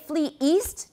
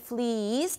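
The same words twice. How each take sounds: First: A glottal stop separates the two words. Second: The two words run together without a stop. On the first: "We put that glottal stop in there to keep them separate" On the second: "If we took the glottal stop out, it would be flee east"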